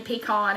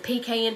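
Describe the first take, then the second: First: "pecan" as pee-KAHN; "pecan" ending in a long "ah" vowel; alternative pronunciation. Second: "Pecan" as PEE-kay-un; "Pecan" rhyming its end with "can"; Southern pronunciation variant. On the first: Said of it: "however you wanna say it". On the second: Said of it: "however we pronounce it". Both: Shown as a demonstration.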